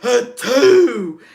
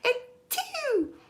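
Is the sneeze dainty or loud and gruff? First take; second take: loud gruff; dainty. First: The sneeze sounds loud, gruff and forceful. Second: The sneeze sounds small, dainty and cute.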